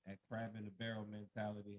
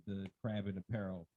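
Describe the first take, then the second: First: Said in the usual way. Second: "apparel" said where barrel belongs; slip of the tongue. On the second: Real, not acted. Guest stumbling on crab in a barrel, saying "apparel". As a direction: fumble barrel into "apparel", with an added first syllable. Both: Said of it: "I said that all wrong".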